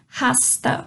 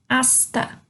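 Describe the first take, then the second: First: The word begins with a breathy h sound. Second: The word begins directly with a vowel sound. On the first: The speaker calls it wrong. "Nada de rasta" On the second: The speaker calls it right. "eu não pronuncio o H nenhuma dessas"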